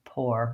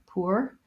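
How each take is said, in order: First: The vowel is a single plain or sound. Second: The vowel glides from oo into er. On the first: "I personally say it the same as this one, pour, with just the or vowel" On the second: "the British will say more of a pour, pour with an oo and an er"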